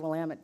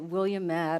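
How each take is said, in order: First: The word rhymes with 'damn it'. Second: The word does not rhyme with 'damn it'. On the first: The speaker calls it right. "you always know how to say Willamette because you say Willamette, damn it" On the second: The speaker calls it wrong. "You don't say Willamette or some other variation"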